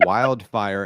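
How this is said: The first vowel is a full 'eye' glide. This is how locals in the new place say it. "people were saying wildfire"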